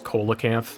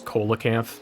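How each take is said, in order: First: It is pronounced the way it is spelled. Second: It is pronounced the way it is spelled.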